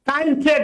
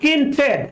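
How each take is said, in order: First: The first syllable sounds like 'kine'. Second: The first syllable sounds like 'kin'. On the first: The speaker calls it wrong. "কাইন ট্রেড না" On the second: The speaker calls it right.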